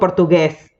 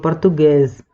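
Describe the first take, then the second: First: The last vowel is open with a wide mouth. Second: The last vowel is closed, rounded and nasal. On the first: The speaker calls it wrong. "no digo portugués" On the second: The speaker calls it right. "la boca no se abre completamente"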